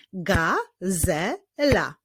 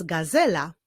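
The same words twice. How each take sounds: First: GAZELA very slowly as GA, ZE, LA; three separate beats on "gazela"; drawn-out GA... ZE... LA; syllable by syllable. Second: Said in the usual way. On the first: Shown as a demonstration. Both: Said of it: "Wyklaszczmy sylaby w tych wyrazach".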